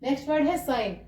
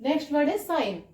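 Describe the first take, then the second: No difference in how they are said.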